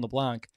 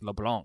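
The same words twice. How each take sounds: First: The name is said with a plain English accent. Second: The name is said with a French accent. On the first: "it's always Cravon LeBlanc" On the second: "now it's like getting all French accent with it"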